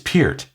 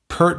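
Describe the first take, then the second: First: The vowel sounds like the one in 'here'. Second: The vowel sounds like the one in 'her'. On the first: This is the form the speaker now tries to use. The speaker calls it right. "We never said [name]. I try to force myself now" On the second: This is the form the speakers grew up using. The speaker calls it wrong. "We all grew up saying Pert"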